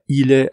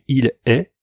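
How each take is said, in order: First: The l is linked onto the following vowel. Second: The two words are kept apart without linking. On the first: The speaker calls it wrong. "pas il est avec la liaison" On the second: The speaker calls it right. "il faut pas faire de liaison, c'est il est"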